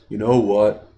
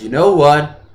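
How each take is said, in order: First: It is said in a really bored voice. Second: It is said in an ordinary, non-bored voice.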